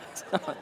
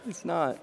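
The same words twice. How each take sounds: First: It's not said through a soft laugh; laughing denial. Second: Said in the usual way. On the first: Real, not acted. Preacher still laughing as he insists the story is true.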